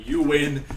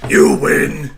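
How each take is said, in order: First: Said in the usual way. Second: "You win" shouted much louder; loud mock surrender. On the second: Real, not acted. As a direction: yell "You win" like a dramatic defeat.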